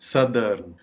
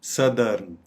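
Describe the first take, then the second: No difference in how they are said.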